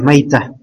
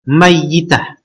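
First: The y sound is short and single. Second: The y sound is long and doubled. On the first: This is the lightened form of the word. "Dia mukhaffaf ya" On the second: This is the original, unshortened form of the word. "Ada qiraah lain"

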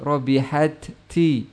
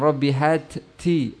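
Both takes have the same delivery.

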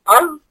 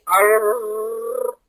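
First: The r is a single light tap. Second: The r is rolled with repeated taps. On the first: The speaker calls it right. "هتلاقي لسانك ارتعد" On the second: The speaker calls it wrong. "هيبقى فيها ايه؟ تكرار"

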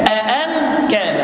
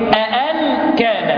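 No difference in how they are said.

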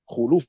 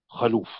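First: The first vowel is u, as in khuluf. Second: The first vowel is a, as in khaluf. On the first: The speaker calls it right. "بضم الخاء" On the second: The speaker calls it wrong. "كثير من طلبة العلم يخطئون ويقولون"

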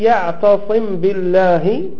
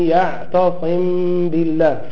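No difference in how they are said.

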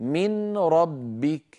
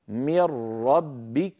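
First: The n is pronounced before a single r. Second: The n disappears into a doubled r. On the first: "كان النطق قبل الإدغام" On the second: "بعد الإدغام صار النطق هكذا"

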